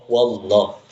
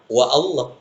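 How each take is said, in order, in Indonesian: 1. Wa langsung menyambung ke bunyi l. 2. Ada vokal a yang terpisah setelah wa. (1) "Tidak terbaca ketika ada huruf yang mendahulunya" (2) "Bukan lagi kita baca"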